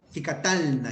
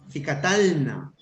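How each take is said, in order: First: Said in the usual way. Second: Slow model reading. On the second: Shown as a demonstration.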